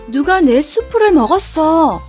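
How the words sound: It is spoken in a medium-pitched voice. "중간 목소리로 말했어요"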